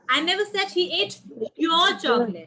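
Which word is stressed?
your. The word "your" carries the stress. The chocolate belonged to someone else. "It was not yours"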